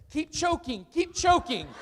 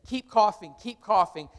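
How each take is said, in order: First: Mock nervous instructor blurt; nervous slip. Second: Said in the usual way. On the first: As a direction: keep choking blurted higher, a laugh breaking in. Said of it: "and he says". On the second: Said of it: "and say".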